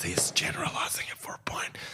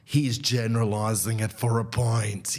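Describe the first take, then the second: First: A soft unvoiced aside; whispered echo. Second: Said in the usual way. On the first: Shown as a demonstration. Comedian whispering his own point back as a sly aside. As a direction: whisper the line back to yourself. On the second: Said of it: "Yes, he's generalizing it for a point".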